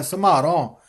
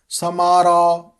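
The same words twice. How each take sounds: First: ਸਮਾਰੋ as "samhaaron", breathy m and nasal end; half h, nasal. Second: ਸਮਾਰੋ as bare "samaro"; plain m and oral final o in ਸਮਾਰੋ; no h, no nasal. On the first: Teacher modelling ਸਮਾਰੋ with half h and nasal ending. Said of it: "ਅੱਧਾ ਹਾਹਾ ਵੀ ਉਚਾਰਨ ਕਰਨਾ". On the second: Teacher showing the mistake, ਸਮਾਰੋ without h or nasal. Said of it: "ਇਸ ਤਰ੍ਹਾਂ ਉਚਾਰਨ ਨਹੀਂ ਕਰਨਾ". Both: Shown as a demonstration.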